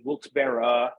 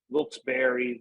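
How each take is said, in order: First: Wilkes-Barre ending in "berra"; "berra" pronunciation. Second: Wilkes-Barre ending in "berry"; "berry" pronunciation. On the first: Local showing the town debate, Wilkes-Barre said as "berra". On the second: Local showing the town debate, Wilkes-Barre said as "berry". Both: Shown as a demonstration. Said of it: "how to pronounce".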